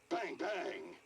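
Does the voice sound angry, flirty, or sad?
angry. It is said in an angry tone.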